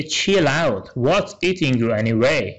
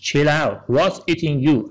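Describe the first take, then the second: First: Slowed to half pace, every word clear; slow, careful model line; slow dialogue reading. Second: Said in the usual way. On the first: Shown as a demonstration. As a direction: spell it out slowly for learners. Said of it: "ان میگه". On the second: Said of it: "Chill out به معنی آروم باش".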